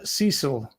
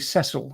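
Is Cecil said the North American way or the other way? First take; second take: North American; other way. First: Cecil is said the North American way. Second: Cecil is said the non-North American way.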